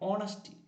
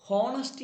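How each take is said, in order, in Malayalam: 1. ഈ വാക്ക് സ്വരാക്ഷരത്തിലാണ് തുടങ്ങുന്നത്, h ഇല്ല. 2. ഈ വാക്ക് കേൾക്കാവുന്ന h ശബ്ദത്തിലാണ് തുടങ്ങുന്നത്. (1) "ഓണസ്റ്റി എച്ച് സൈലൻ്റ് ആണ്" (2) "ഹോണസ്റ്റി അല്ല"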